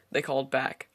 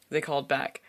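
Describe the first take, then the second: No difference in how they are said.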